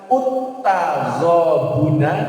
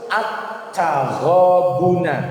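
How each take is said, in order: First: The word begins with the vowel u. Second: The word begins with the vowel a. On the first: The speaker calls it wrong. "Tidak boleh dibaca" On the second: The speaker calls it right. "tetapi harus"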